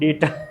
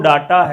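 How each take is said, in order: First: The first vowel is an 'ay' sound. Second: The first vowel is an open 'ah' sound. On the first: The speaker calls it right. "इसका सही pronunciation डेटा" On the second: The speaker calls it wrong. "ये जो डाटा है"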